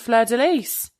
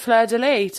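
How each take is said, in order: First: The final s of Lis is pronounced. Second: The final s of Lis is silent. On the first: This is the correct French pronunciation. The speaker calls it right. "Turns out it's the" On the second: This is how most people say it. The speaker calls it wrong. "Everyone's calling it the"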